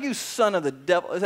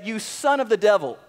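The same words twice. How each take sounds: First: Said in the usual way. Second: Paul's rebuke, pressed a little harder; a touch of heat on son; mildly angry rebuke. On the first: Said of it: "he's not happy". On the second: Acted. Paul rebuking the false prophet before the governor, mildly angry. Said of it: "he was not happy when he said this".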